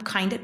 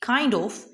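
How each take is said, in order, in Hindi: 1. दोनों शब्द मिलकर एक संक्षिप्त शब्द बन जाते हैं। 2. दोनों शब्द पूरी तरह और अलग-अलग बोले जाते हैं।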